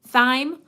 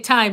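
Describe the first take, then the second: First: The word begins with a soft 'th' sound. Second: The word begins with a hard 't' sound. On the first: "do you pronounce it with the T H, th, th" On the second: "I say time"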